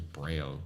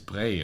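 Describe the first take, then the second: First: The name ends with a clear l sound. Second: The name ends in a plain vowel, no final l. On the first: The speaker calls it wrong. "Anglo pronunciation" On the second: The speaker calls it right. "it would be like Louis Bray in, in French"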